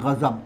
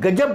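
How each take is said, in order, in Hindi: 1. ये गले वाले gh से शुरू होता है और इसमें z है। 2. ये सादे g से शुरू होता है और इसमें j है।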